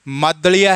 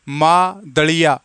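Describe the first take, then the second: First: The word is said as one smooth unit. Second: The word is split into two separate parts.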